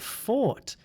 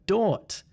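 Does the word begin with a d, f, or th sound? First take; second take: f; d. First: The word begins with an f sound. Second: The word begins with a d sound. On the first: "it's also not a F sound" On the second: "This sound is not a D sound"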